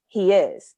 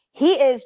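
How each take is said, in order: First: Said in the usual way. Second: Higher, louder snippy retort; with an attitude. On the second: Retold or imitated. Friend snapping back over the phone, with attitude. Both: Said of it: "with an attitude".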